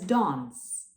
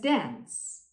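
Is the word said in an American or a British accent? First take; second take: British; American. First: It is said in a British accent. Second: It is said in an American accent. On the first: "In British English, it is pronounced as dance" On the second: "In American English, it is pronounced as dance"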